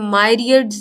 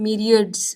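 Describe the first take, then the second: First: The first syllable sounds like 'my'. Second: The first syllable sounds like 'mee'. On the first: The speaker calls it wrong. "इसे आपने मायरियड्स नहीं पढ़ना" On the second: The speaker calls it right. "मीरियड्स पढ़ना है"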